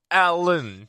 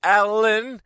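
First: Alan stretched with a falling end; exaggerated emphasis. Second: Alan pitched high and loud; exaggerated emphasis. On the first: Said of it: "The emphasis". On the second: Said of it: "you're doing the same thing". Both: Shown as a demonstration.

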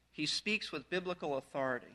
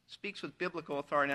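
First: Said in the usual way. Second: Weight the word "biblical" over "authority"; stress on biblical. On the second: Shown as a demonstration. Preacher to congregation, repeating with stress on "biblical". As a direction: lean on "biblical", lower and quieter. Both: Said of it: "I emphasize the word biblical".

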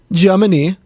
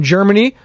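First: "Germany" in a put-on German accent. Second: Said in the usual way. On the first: Echoing a listener's country, "Germany" in a German accent. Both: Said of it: "my German, uh, accent".

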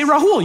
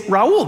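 First: Rahul with the H breathed. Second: Raul with no H, vowels joined; Miami Raul. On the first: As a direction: sound the H in "Rahul": ra-HOOL. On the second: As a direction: drop the H in "Raul", Spanish style. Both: Shown as a demonstration. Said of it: "You say Raul".

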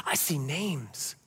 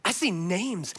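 First: "I see names" said slowly and softly, low, each word drawn out; slow quiet emphasis. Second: Said in the usual way. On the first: Shown as a demonstration. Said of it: "repeated line, first take". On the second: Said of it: "repeated line, second take".

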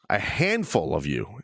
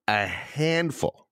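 First: Said in the usual way. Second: "a handful" slowed right down for emphasis; emphatic repeat. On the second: Real, not acted. Host repeating the word for his complaining listeners, "a handful" slow and pointed. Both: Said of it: "I want to repeat the word".

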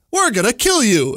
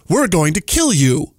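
First: Higher, mock-menacing alien; lightly voiced sinister alien; creepy alien voice. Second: Slow, menacing alien threat; creepy alien voice. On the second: Retold or imitated. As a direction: drag it out like a sinister alien. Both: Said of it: "it says in its creepy alien voice".

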